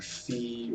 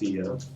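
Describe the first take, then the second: First: The name is one syllable rhyming with see. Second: The name has two syllables, ending in uh. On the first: The speaker calls it wrong. "or Fee" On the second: The speaker calls it right. "but it is Fia"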